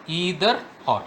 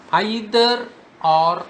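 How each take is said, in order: First: "either" said EE-ther; "either" starting with an "ee" sound; EE-ther pronunciation. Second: "Either" said EYE-ther, slowly; "Either" starting like "eye", drawn out; EYE-ther pronunciation. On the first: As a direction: say "either" with a long E, as in see. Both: Shown as a demonstration. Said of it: "How can pronounce this correlative conjunction".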